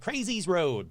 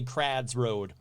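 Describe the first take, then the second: First: The name sounds like 'crazy's road'. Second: The name sounds like 'crads road'. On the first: The speaker calls it wrong. "You probably pronounce it like Crazy's Road" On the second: The speaker calls it right. "W Y is called is pronounced ad, so it's actually Crads Road"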